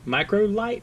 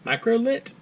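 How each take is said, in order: First: The last word has a long 'i' vowel. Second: The last word has a short 'i' vowel. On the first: "maybe? But there's no E" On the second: "That doesn't sound right"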